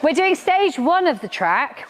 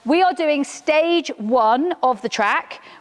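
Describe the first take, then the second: First: It is said in a lively, high-energy way. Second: It is said in a flat, low-energy way. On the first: The speaker calls it right. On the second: The speaker calls it wrong.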